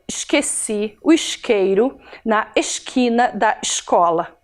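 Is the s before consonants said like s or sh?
sh. The s before consonants sounds like sh, carioca-style.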